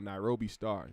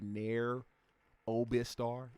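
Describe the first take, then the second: First: It is split after Nairobi, then star. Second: It is split after Nair, then Obistar. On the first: The speaker calls it right. "There we go" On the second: The speaker calls it wrong. "I wanted to say Nair Obistar, like a fucking like a weirdo"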